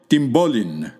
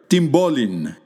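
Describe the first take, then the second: First: Words run together, n and p become mb. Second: Words run together, n and p become mb.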